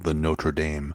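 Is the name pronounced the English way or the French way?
English. The name is pronounced the English way. This is how ordinary English speakers say it. "for you lay people"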